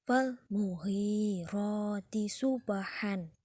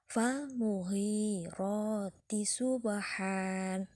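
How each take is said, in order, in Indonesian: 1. Kata terakhir berakhir dengan bunyi n. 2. Kata terakhir berakhir dengan vokal panjang.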